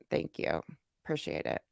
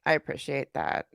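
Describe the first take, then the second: First: Breathy whisper of thanks, almost off mic. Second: Said in the usual way. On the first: Real, not acted. Streamer to chat donors, whispering thanks. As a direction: drop to a whisper and murmur the thanks.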